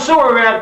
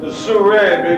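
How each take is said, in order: First: The name sounds like two plain English words. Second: The name is blended into one French-sounding word. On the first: "It's spelled Sewer Rat" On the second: "I much prefer the pronunciation Souret because it sounds so French"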